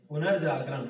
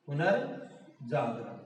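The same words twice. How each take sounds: First: Said in the usual way. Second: पुनर्जागरण drawn out, पुनर् apart from Jagran; slow, quiet repeat in two parts, पुनर् then Jagran; slow dictation. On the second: Shown as a demonstration. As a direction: say पुनर्जागरण at half speed, low and soft. Teacher repeats it slowly while writing.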